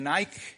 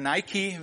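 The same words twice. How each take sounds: First: Nike is said with a German pronunciation. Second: Nike is said with an American pronunciation.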